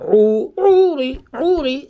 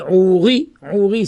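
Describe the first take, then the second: First: "Ouri" with high, lengthened "Ou"; stress on the first syllable. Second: "Ouri" with weight on final "ri"; stress on the last syllable. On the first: Teacher relays a question on accents, "Ouri" stressed on "Ou". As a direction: press the "Ou" of "Ouri". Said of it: "c'est Mil'el". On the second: Teacher relays a question on accents, "Ouri" stressed on "ri". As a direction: land on the "ri" of "Ouri". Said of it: "c'est Milra". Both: Shown as a demonstration.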